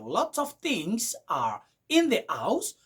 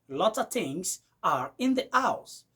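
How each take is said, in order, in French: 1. 'Lot of' se prononce comme deux mots pleins. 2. 'Lot of' se fond en 'lotta'. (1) "Au lieu de dire" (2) "vous allez écouter du genre"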